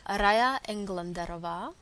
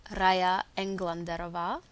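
No difference in how they are said.

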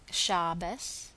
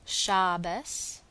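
Both takes have the same delivery.

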